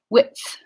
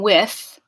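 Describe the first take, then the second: First: A brief t-like stop comes before the th. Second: It flows straight into the final th sound. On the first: "I'm doing a quick pause at the alveolar ridge, and then going to the fricative" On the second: "I'm not just saying width"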